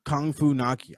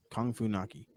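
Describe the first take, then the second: First: Said in the usual way. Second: Muttered fondly. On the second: Real, not acted. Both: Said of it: "I love it".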